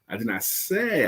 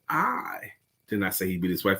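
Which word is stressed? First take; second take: say; I. First: The stress falls on the word say. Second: The stress falls on the word I. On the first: It may have been implied instead. "I could have implied it" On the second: The speaker personally did not say it. "That means me in specific"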